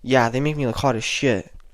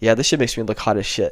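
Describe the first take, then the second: First: It is said flatly, without amusement. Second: It is said with amusement, then a laugh.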